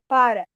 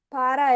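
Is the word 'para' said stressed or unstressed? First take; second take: stressed; unstressed. First: The first syllable is strong and stressed. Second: The word is weak and unstressed. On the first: It is the verb meaning 'stops'. "ele tinha um acento para fazer esse som é, da sílaba tônica, da sílaba mais forte" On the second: It is the preposition meaning 'for'. "que era diferente"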